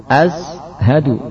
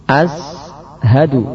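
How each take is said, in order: The two takes are said the same way.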